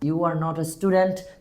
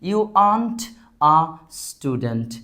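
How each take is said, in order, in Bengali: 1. 'are not' শব্দ দুটো পুরোপুরি বলা হয়। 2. 'are not' শব্দ দুটো মিশে 'aren't' হয়ে যায়। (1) "are not" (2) "are not কে কি বললাম? aren't"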